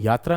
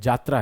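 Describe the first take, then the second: First: The word begins with a y sound. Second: The word begins with a j sound. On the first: The speaker calls it wrong. "यात्रा नहीं है" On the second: The speaker calls it right. "जात्रा है"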